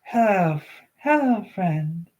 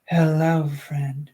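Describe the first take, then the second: First: Put-on a young girl greeting a stranger, sing-song; baby voice. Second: Put-on a faint childlike voice, barely shifted; lightly voiced little girl greeting; baby voice. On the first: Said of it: "let me try that again". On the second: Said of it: "let me do my baby voice".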